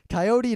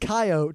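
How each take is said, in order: First: Pronounced the way Eastern Americans say it. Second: Pronounced the way Western Americans say it. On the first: "it's Coyote to all you uh, Easterners here" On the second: "It's Coyote to people in the West who actually know"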